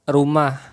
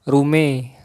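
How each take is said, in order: First: It ends in standard 'ah' sound. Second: It ends in Central Betawi 'e' sound.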